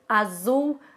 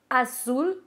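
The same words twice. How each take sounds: First: The middle consonant is a voiced buzzing Z. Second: The middle consonant is a voiceless hissing S. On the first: The speaker calls it wrong. "não é como é pronunciado no espanhol" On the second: The speaker calls it right. "Então é tudo S"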